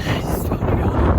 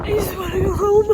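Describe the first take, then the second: First: Breathless, voiceless crying; whispered sob. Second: High, loud tearful plea; crying. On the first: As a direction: sob the words out. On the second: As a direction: voice breaking, sobbing. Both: Real, not acted. Breakdown continues.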